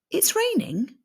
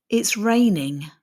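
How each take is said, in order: First: "It's raining." pitched much higher as a question; rising question. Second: "It's raining." falling at the end; falling statement. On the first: Teacher showing a question, "It's raining?" pitched up. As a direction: ask "It's raining?" with a high, open voice. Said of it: "the voice usually rises at the end". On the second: Teacher showing a statement, "It's raining." falling. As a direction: let "raining" drop down, finished and sure. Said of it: "statements usually have a falling intonation". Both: Shown as a demonstration.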